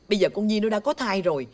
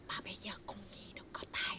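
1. Câu này được nói rất to. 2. Câu này được nói rất nhỏ. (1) "Bà làm ơn bà nói nhỏ nhỏ giùm tôi cái. Nó lớn quá" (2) "Quá nhỏ"

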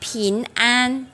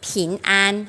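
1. Được nói với giọng Đài Loan, đầu lưỡi đưa về phía trước. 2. Được nói với giọng Đài Loan, đầu lưỡi đưa về phía trước.

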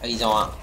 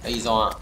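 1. Nguyên âm đầu là âm 'uh-ee' ngắn. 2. Nguyên âm đầu là âm 'uh-ee' ngắn.

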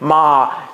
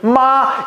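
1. 阴平调音域较低。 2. 阴平调音域较高。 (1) "阳平" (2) "阴平"

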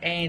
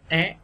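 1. Nguyên âm này đọc với giọng bằng. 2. Nguyên âm này đọc với giọng lên. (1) "Thay vì là e" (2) "các bạn đọc thêm dấu sắc là é"

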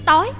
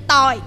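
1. Từ này đọc với thanh sắc. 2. Từ này đọc với thanh huyền, giọng hạ thấp dần. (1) "thêm dấu sắc vô là nó thành chữ tối" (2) "thêm cái dấu quyền nó sẽ thành chữ tòi"

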